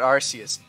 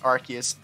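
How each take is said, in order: First: The 'c' is said like an 's' sound. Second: The 'c' is said like a 'k' sound. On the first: This is the original pronunciation that sounded like 'arse'. The speaker calls it wrong. "not Arceus" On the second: This is the changed, official pronunciation. The speaker calls it right. "Yes, I'm saying it right. It's Arceus"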